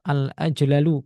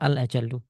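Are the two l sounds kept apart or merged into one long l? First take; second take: apart; merged. First: The two l sounds are separated by a vowel. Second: The two l sounds merge into one long l. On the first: The speaker calls it wrong. "Seperti dia mengatakan al-ajlalu, ... tidak fasih" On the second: The speaker calls it right. "padahal harusnya dia mengatakan al-ajallu"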